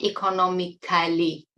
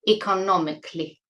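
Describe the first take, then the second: First: The ending is said as a full 'cali'. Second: The ending is said as a reduced 'cli'. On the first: The speaker calls it wrong. "it is not economically... pronouncing C A L L Y as Cali" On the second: The speaker calls it right. "It's cli"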